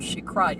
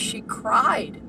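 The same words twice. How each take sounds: First: Said in the usual way. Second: Slow emphasis. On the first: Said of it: "And she cried". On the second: Real, not acted.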